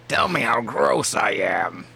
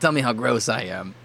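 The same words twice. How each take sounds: First: It is said in a put-on troll voice. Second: It is said in a normal voice.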